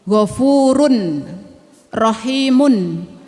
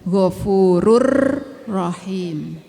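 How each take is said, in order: First: The n sound is kept before rahimun. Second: The n sound merges into the r. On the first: "Wallahu ghafurun rahimun" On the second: "tapi secara tajwid bacanya ghafurur rahim"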